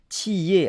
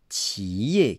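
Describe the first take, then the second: First: The word is said with Taiwanese tones. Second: The word is said with Mainland Chinese tones. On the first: "avec des différences de ton, simplement pour dire l'entreprise à Taïwan" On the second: "En Chine, ils vont dire comme ça"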